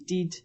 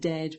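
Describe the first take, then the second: First: It has a local Annan dialect 'ih' vowel. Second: It has the short standard 'eh' vowel.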